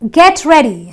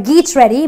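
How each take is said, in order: First: The first word has a short eh vowel. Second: The first word has a long ee vowel. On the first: The speaker calls it right. "So that's the eh sound" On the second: The speaker calls it wrong. "or geet ready"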